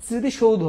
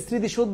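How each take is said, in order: First: স্মৃতিসৌধ said as 'sriti-shou-dho'; full 'shoudho' ending. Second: স্মৃতিসৌধ said as 'sriti-shodh'; short 'shodh' ending. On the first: Teacher correcting students, স্মৃতিসৌধ ending 'shou-dho'. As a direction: glide on OU and sound the final O in স্মৃতিসৌধ. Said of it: "উচ্চারণটা আবার এইভাবেই". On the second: Teacher citing the common mistake, স্মৃতিসৌধ ending 'shodh'. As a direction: end স্মৃতিসৌধ on plain O, no final vowel. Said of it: "যদি আমরা উচ্চারণটা কি স্মৃতিসৌধ বলি". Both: Shown as a demonstration.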